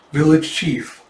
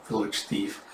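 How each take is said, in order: First: "Village chief" with a clear ch sound; "Village chief" corrected, the ch made clear; correction. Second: "village thief", the wrong word, read with th; mishearing. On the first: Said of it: "Ah, village thief". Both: Shown as a demonstration.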